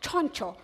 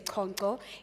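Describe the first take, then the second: First: The name is pronounced with Sotho sounds. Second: The name is pronounced with Zulu sounds. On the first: The speaker calls it right. "it is the Sotho version, where you say Choncho" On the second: The speaker calls it wrong. "the Zulu version, where we say Choncho"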